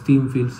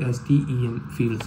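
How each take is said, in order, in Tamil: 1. STEM ஒரே வார்த்தையாகச் சொல்லப்படுகிறது, steam போல. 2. STEM தனித்தனி எழுத்துகளாகப் பிரித்துச் சொல்லப்படுகிறது. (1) "நிறைய பேர் சொல்லுவாங்க" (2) "நான் அது ப்ரொனவுன்ஸ் பண்ணுறது"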